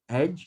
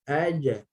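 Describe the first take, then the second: First: The j stops flat with no bouncing echo. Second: The j is released with a short bouncing echo. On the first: The speaker calls it wrong. "Jangan aj. Aj, tak nak. Okay, aj, dia tak melantun" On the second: The speaker calls it right. "sentiasa bunyi ke arah baris"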